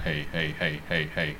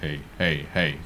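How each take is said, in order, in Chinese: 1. 低频被降低了，听起来比较轻。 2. 低频被提高了，听起来很沉。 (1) "將個low 咧收翻細" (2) "將個low 扭大少少先"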